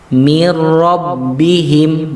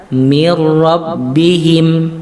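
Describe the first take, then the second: Both takes have the same delivery.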